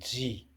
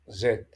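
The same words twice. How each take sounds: First: The letter is said in an American accent. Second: The letter is said in a British accent. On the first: "En anglais américain, elle est prononcée Z" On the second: "En anglais britannique, la lettre Z est prononcée comme en français"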